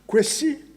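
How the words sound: The name is pronounced in the Fanti way. "Kwesi is a Fanti rendering of the name"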